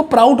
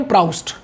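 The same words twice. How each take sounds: First: प्राउट without the S sound; variant pronunciation Prout. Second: प्राउस्ट with the full -st ending; pronounced Proust. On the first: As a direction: say प्राउट with no S, ending on a plain T. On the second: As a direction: say प्राउस्ट with an S before the final T. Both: Shown as a demonstration. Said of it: "कई लोग इसको प्राउट बोल देते हैं".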